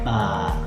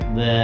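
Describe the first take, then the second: First: The vowel is an open 'a' sound. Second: The vowel is a closer 'e' sound. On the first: The speaker calls it right. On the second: The speaker calls it wrong.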